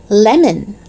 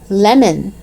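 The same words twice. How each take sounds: No difference in how they are said.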